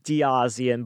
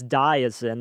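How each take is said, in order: First: The name ends with an extra 'ee-an' syllable. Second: The name ends with a short 'zin' syllable. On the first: The speaker calls it wrong. "It looks like Diazian" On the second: The speaker calls it right. "but it's Diazin. That's how he said it"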